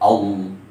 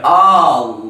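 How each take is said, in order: First: The opening vowel is said short. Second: The opening vowel is drawn out long. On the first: The speaker calls it right. "Harus pendek" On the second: The speaker calls it wrong. "Tidak boleh"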